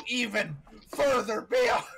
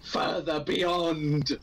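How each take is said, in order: First: High, loud battle cry; anime power-up scream. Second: Slow shouted anime cry. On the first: Acted. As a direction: yell "further beyond" like a transforming hero. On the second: Shown as a demonstration. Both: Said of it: "go as high as you physically can".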